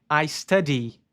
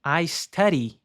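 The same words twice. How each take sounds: First: "study" with a hard D, the way it is not said. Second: "study" with the D tapped like an R, as "stari"; flapped study. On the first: Teacher shows the wrong pronunciation to students, with a hard D. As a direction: say "study" with a full D stop. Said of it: "não se pronuncia esse D como D". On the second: Teacher gives the right pronunciation to students, with a flapped D. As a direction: tap the D of "study" like a quick R. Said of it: "É um R". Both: Shown as a demonstration.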